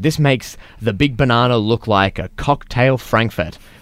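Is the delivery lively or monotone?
lively. It is said with a lively, varied tune.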